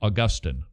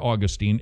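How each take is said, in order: First: The name is said the common way. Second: The name is said the Florida way.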